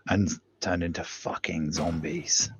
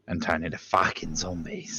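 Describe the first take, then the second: First: It is said in a posh English accent. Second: It is said in a Cockney accent.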